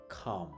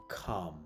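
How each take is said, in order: No difference in how they are said.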